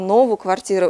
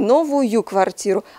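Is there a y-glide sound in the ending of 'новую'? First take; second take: no; yes. First: The ending has no y sound between vowels. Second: The ending has a y sound between vowels. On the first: This is the dialect form. "а новую квартиру" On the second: This is the standard form. "не новую квартиру"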